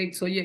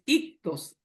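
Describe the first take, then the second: First: It is said as 'ix-oy-eh', ending in 'oye'. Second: It is said as 'ik-tos', ending in 'os'. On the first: This is how a beginner reads the letters. The speaker calls it wrong. "Yo también lo decía cuando, cuando recién anduve en el paso del Señor" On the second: This is the Greek pronunciation. The speaker calls it right. "aprende griego y es ictos"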